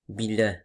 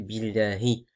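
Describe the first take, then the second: First: The word ends on the h consonant. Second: The word ends with a short i vowel. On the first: The speaker calls it wrong. "souvent ils ont tendance à dire billah" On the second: The speaker calls it right. "alors que c'est billahi"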